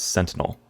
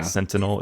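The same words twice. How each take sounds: First: The middle vowel is silent. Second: The middle vowel is clearly pronounced. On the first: The speaker calls it right. "The I is apparently uh, like silent" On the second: The speaker calls it wrong. "It's not"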